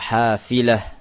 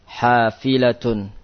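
First: The word ends in a stopped h sound. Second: The word ends with a full -tun ending. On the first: The speaker pauses and stops on the word. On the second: The word is read without stopping on it.

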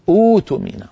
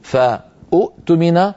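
First: A long u vowel comes before the t. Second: A second glottal stop comes before the t. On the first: The speaker calls it right. "يبدلون الهمزة الساكنة الثانية حرف مد" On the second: The speaker calls it wrong. "العرب لا تجمع في النطق بين همزتين ثانيتهما ساكنة"

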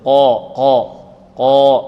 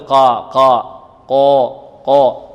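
First: The q sound is heavy, with a full back quality. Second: The q sound is light, without the heavy quality. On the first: The speaker calls it right. "مفخمة" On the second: The speaker calls it wrong. "ولا نقول"

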